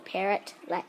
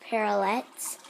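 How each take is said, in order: First: The T after 'parrot' is clearly pronounced. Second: The T after 'parrot' is weak or dropped. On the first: The speaker calls it right. "It's it has two T's, so parrotlets" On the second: The speaker calls it wrong. "A lot of people call it parrotlets, but um, it's really not"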